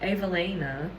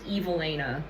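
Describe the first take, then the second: First: The name does not start like 'evil'. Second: The name starts with the sound of 'evil'. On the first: "at first I was thinking Evelina" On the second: "what if it's just pronounced Evelina? ... she has evil in her name"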